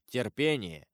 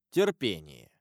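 First: Said in the usual way. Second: Low, grave voice that makes the dying tremble; ominous abbot. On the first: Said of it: "сказал аббат голосом, от которого умирающий затрепетал". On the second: A narrator's reading. Abbot warns the dying Caderousse, low and grave. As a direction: drop low and let Терпение chill him. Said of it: "голосом, от которого умирающий затрепетал".

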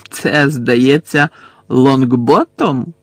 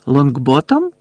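First: Slow, sneering drawl on Лонгботом; mocking. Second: Лонгботом echoed with rising tune; questioning echo. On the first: Death Eater jeering at the captured Neville, slow mocking Лонгботом. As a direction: draw out Лонгботом mockingly, tone falling. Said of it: "глузливо посміхнувся Луціус Мелфой". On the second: Bellatrix checking the captive's name, Лонгботом as rising question. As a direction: ask Лонгботом back, lifting the last syllable. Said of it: "перепитала Белатриса". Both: A narrator's reading.

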